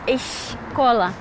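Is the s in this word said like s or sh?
sh. The s is said with an sh sound. "y no escola. Con X"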